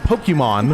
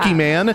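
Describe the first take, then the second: First: The name is pronounced in the standard way. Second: The name is pronounced in a distorted way. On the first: The speaker calls it right. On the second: The speaker calls it wrong. "And it's not"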